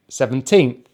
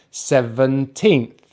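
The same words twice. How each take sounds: First: Said in the usual way. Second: Put-on "seventeenth" slowly as seven, then teenth; syllable by syllable. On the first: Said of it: "which we stress". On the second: Shown as a demonstration. Teacher adding teenth to seven for learners, "seventeenth" slowly split. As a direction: draw "seventeenth" out in two parts. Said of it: "we just say the number before that".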